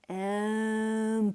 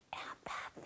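First: The word is said very slowly. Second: The word is whispered very quietly.

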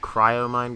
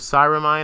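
First: The word begins with the sounds 'cry-o'. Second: The word begins with the sounds 'sigh-ro'. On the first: The speaker calls it right. "It's called Cryomine Glove" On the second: The speaker calls it wrong. "I pronounced it wrong last video. It's not called Cyromine"

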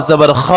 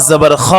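Both takes have the same delivery.

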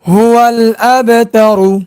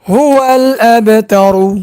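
The two takes are said the same way.

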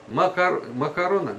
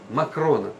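First: An extra vowel is heard between k and r. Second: No vowel is heard between k and r. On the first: The speaker calls it wrong. "Как правильно? Макарона? Нет" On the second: The speaker calls it right. "Нет, Макрона"

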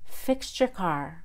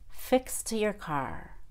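First: The T and Y blend into a CH sound. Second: The T is released with a puff of air. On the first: "First, I'll do the CH" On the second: "and then the aspirated T"

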